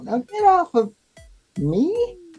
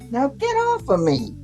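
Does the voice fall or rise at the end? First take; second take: rise; fall. First: The voice rises at the end, like a question. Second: The voice falls at the end.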